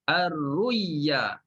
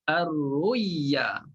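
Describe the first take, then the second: First: The middle consonant sounds like y. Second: The middle consonant sounds like y.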